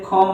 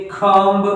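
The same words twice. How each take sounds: First: "खम्ब" ending on M, no B; silent B. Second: "खम्ब" with a B released after M; wrong, sounded B. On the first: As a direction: close "खम्ब" on the M. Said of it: "तो बी नहीं पढ़ेंगे". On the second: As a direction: finish "खम्ब" on an audible B. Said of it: "खम्ब नहीं बोलते हैं". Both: Shown as a demonstration.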